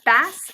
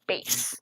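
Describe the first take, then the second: First: It is pronounced like the word for the fish. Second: It is pronounced like bass in bass guitar. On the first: It names a kind of fish. The speaker calls it wrong. "It's not a bass" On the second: It names the low musical range. The speaker calls it right. "it's a bass"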